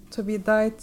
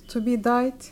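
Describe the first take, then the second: No difference in how they are said.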